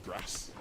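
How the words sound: It is said in a Northern British accent.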